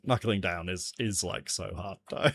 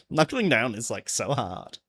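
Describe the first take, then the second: First: Softer, lower repeat of the complaint; subdued. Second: Put-on light Valley Girl complaint; a touch of Valley Girl on "like, so hard". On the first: Pretend. Streamer after telling self off, subdued complaint. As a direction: grumble it low, half to yourself. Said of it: "Pull yourself together, man". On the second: Streamer mocking own complaint, light Valley Girl voice. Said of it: "sounding like a Valley Girl".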